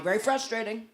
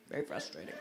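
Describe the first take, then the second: First: Said in the usual way. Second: A low murmured echo, much softer; dropped low and soft. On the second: Shown as a demonstration. Comic sympathy for the fridge complaint, low and soft. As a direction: drop way down and go soft.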